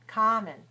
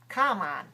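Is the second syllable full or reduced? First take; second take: reduced; full. First: The second syllable is weak and reduced. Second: The second syllable is full and strong. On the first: The speaker calls it right. "The second syllable is definitely weaker" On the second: The speaker calls it wrong. "That would be incorrect"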